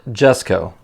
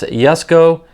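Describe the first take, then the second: First: The name begins with a J sound. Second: The name begins with a Y sound. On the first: The speaker calls it wrong. "not Jesko" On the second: The speaker calls it right. "It's pronounced Jesko ... you have to say it with a, a Y sound"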